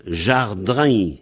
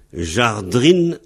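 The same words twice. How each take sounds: First: Jardrain with a nasal -ain ending; jardrain: zhar-drã, nasal end. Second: Jardrine ending in a full -ine; Jardrine: zhar-dreen; Jardrine with clear -ine. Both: Shown as a demonstration. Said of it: "jardrine devient jardrain".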